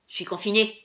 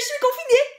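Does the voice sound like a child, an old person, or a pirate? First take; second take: pirate; child. First: It is said in a gruff pirate voice. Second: It is said in a small childish voice. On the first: "comme si on était un pirate" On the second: "comme si on était un enfant euh, très très jeune"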